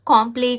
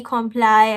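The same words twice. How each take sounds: First: "Comply" said as kom-plee, first syllable open like "com", last like "plee"; mock guess at "Comply", kom-plee; guessed pronunciation. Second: "comply" said as kom-ply, ending in "ply"; "comply" guessed with a long "ply" ending; second guess. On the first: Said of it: "don't just, you know, um, don't guess it". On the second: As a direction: try "comply" again, kom-ply with a strong k. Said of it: "don't guess it". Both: Shown as a demonstration.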